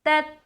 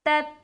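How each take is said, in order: First: The final t is held and stops abruptly. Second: The same.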